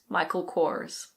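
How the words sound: It is said with an American pronunciation, R sounded. "In American English, you pronounce the R"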